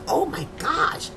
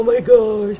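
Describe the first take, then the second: First: It sounds exuberant and thrilled. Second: It sounds dejected and upset.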